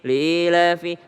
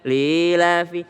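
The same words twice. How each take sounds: The two takes are said the same way.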